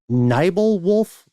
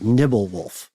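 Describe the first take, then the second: First: The first vowel is a long 'eye' sound. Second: The first vowel is a short 'ih' sound.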